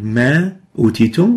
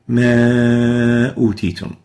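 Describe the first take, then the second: First: The vowel of ma is kept short. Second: The vowel of ma is held long. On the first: The speaker calls it wrong. "instead of saying" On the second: The speaker calls it right. "we lengthen the reading of the vowel"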